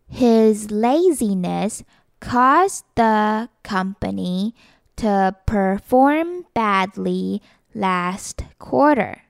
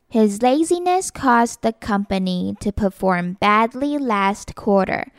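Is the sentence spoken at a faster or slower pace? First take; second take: slower; faster. First: The sentence is spoken at a slower pace. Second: The sentence is spoken at a faster pace.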